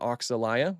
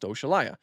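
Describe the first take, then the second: First: The middle consonant is a 'ks' sound. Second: The middle consonant is an 'sh' sound. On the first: "a lot of people like to pronounce it Oxalaya, which is fine too" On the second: "I pronounce it Oshalaya because it's named after the uh, African deity, deity Oshala"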